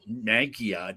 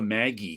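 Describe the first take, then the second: First: It ends with an uh sound. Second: It ends with an ee sound. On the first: "Maggia didn't even make sense" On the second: "I called them the Maggie"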